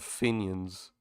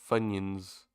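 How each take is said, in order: First: The first syllable sounds like 'fin'. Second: The first syllable sounds like 'fun'.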